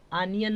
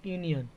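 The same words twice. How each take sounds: First: आनियन with an open first vowel, no y; wrong pronunciation. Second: यूनियन starting with a yoo sound; correct pronunciation. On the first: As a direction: say आनियन like the word onion. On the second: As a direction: say यूनियन with y before the long u. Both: Shown as a demonstration. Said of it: "आनियन नहीं पढ़ेंगे".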